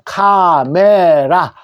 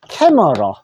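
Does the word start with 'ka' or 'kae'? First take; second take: ka; kae. First: It is said the Korean way, starting with 'ka'. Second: It is said the English way, starting with 'kae'. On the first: "우리가 카메라는 사진기죠" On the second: "영어로 어떻게 하느냐 하면은"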